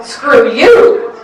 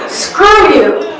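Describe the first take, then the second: First: "Screw" light, "you" hit hard with a rising end; angry blurt leaning on "you"; stress on YOU. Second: "Screw" hit hard and high, "you" lighter with a rising end; angry blurt leaning on "Screw"; stress on SCREW. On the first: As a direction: lean the weight onto "you". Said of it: "then the other syllable". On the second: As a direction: punch the word "Screw", let "you" rise off it. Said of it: "The emphasis placed on first one". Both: Acted.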